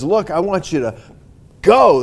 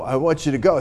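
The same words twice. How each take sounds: First: "go." punched very loud as a command; imperative go. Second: Said in the usual way. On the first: Shown as a demonstration. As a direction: hit "go." like an order. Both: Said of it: "That's imperative".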